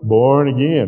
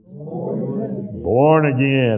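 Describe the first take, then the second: First: It is said plainly, without special feeling. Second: It is said with awe and wonder.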